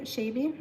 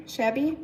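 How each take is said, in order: First: "shabby" tried uncertainly as "shay-bee"; long-A mispronunciation. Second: "shabby" corrected to "shab-ee", checking it; short-A correction. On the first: Trying out how to say it. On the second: Corrects own pronunciation of the word. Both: Real, not acted.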